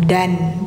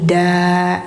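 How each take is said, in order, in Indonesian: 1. Suku kata da berakhir dengan bunyi n. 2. Suku kata da berakhir dengan vokal. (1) "Jadi bukan dan" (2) "tapi da gitu"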